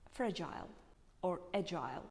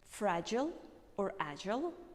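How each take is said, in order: First: It is said in a British accent. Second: It is said in an American accent. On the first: "This is the pronunciation of British accent" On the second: "this is the pronunciation of American accent"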